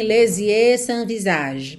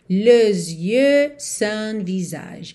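First: The vowels are said without lip rounding. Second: The vowels are said with rounded, pouted lips. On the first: The speaker calls it wrong. "Percebe que a vogal não sai moldada" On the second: The speaker calls it right. "O que molda a vogal é o biquinho"

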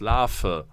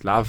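First: The v sounds like an f. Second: The v sounds like a w. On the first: "mit dem Vogel-V" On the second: "vielleicht habe ich mich mein Leben lang geirrt in diesem Punkt und das heißt Larve"

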